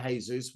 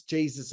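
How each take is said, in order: First: Jesus said the Spanish way, hay-SOOS; soft h, hay-SOOS for Jesus. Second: Jesus said the English way, JEE-zus with a J; plain English JEE-zus for Jesus. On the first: Reviewer switching to the Spanish Jesus, shrugging. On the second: Reviewer trying the English Jesus before correcting. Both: Shown as a demonstration.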